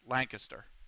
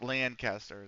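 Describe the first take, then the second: First: Lancaster is said the East Coast way. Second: Lancaster is said the California way. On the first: The speaker calls it right. "us on the East Coast actually pronounce that correctly" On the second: The speaker calls it wrong. "in California, they say Lancaster, and I'm like, there's it's not Lancaster"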